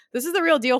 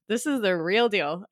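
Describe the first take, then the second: First: Higher and louder, punched out; emphatic hype. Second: Said in the usual way. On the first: Acted. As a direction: sell it like a hype announcer. Repeats catchphrase for emphasis.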